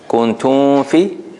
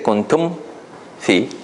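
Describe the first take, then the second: First: The m slides into the f without lips closing. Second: The lips close briefly on the m before f. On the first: The speaker calls it wrong. "if you make a ikhfa, right? Kuntum fi, your lips don't have time to close" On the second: The speaker calls it right. "But if you say kuntum fi, then your lips close"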